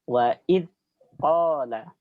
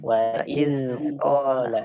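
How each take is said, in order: First: The dh sound's airflow is cut short. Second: The dh sound flows out smoothly. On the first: The speaker calls it wrong. "dengan ditahan aliran suaranya" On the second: The speaker calls it right. "biarkan mengalir dengan lembut"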